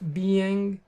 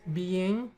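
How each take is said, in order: First: The word ends with a full G sound. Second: The word ends without the G sound. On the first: "instead of being" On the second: "So I tend to drop the G"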